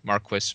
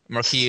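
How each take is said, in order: First: The word is given its English pronunciation. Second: The word is given its French pronunciation. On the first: "apparently is the English" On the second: "the French pronunciation"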